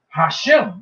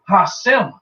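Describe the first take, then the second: First: The middle consonant is an 'sh' sound. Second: The middle consonant is an 's' sound. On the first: The speaker calls it right. "they say Hashem, which means the name" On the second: The speaker calls it wrong. "They don't say Hasem"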